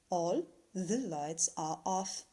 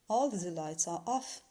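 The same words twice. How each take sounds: First: The sentence is said at a slow pace. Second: The sentence is said at a fast pace.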